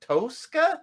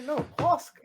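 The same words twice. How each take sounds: First: Tosca with a long American "oh", rising high; friends' mispronunciation. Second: Tosca with short native vowel, pitched high; correcting pronunciation. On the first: Friends trying sister's name again, Tosca mispronounced "TOH-ska". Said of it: "They say". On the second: Correcting friends on sister's name, Tosca pronounced natively, high. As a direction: insist on Tosca, short "o", not "oh". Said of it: "I say". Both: Retold or imitated.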